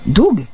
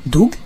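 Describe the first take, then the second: First: Joyful recognition. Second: Low, questioning rise on Doug?; Doug? tried out low and doubtful, rising at the end; unsure cry. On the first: (Doug? crié haut, sûr, qui retombe) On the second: (Doug? lancé bas, hésitant, qui monte) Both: Acted. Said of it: "s'écria-t-il".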